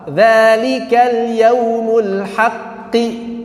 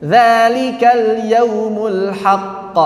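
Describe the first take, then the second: First: Slow chanted "haqqi" with the q held; joined reading. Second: Slow chant ending on a held "haqq"; stopped reading. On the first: Teacher chanting the connected reading for students. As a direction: recite it flowing into "haqqi", doubled q pressed. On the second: Teacher chanting the pausal reading for students. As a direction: stop on "haqq" with the same length of hold. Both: Shown as a demonstration.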